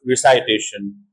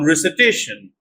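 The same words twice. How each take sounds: First: The second vowel is an eye diphthong. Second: The second vowel is a short schwa. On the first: The speaker calls it wrong. "not recitation" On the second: The speaker calls it right. "noun recitation"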